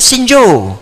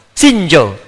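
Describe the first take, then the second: First: Libyan Arabic greeting, a touch higher; Libyan dialect greeting. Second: Slow it down so students catch Sinjo; slow repeat. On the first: Teacher mimics how Libyans greet, in light Libyan Arabic. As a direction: lightly put on the Libyan street word. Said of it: "Datang ke Libya". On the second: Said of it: "Tuh, Sinjo". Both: Shown as a demonstration.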